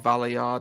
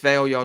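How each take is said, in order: First: The first part is two syllables, like 'valley'. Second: The first part is one syllable, like 'veil'. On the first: "or Valley Yard" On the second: "I don't know whether it's Veil Yard"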